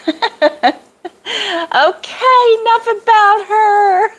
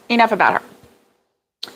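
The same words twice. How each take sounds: First: Playful singsong. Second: Said in the usual way. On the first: Pretend. Speaker cuts off her own gushing praise, playful high singsong. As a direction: sing it out high and teasing. Breaks off praise of someone, laughing.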